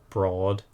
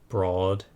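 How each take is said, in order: The two takes are said the same way.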